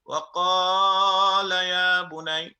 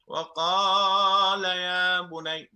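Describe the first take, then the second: First: The long vowel in qaala is stretched out. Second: The same.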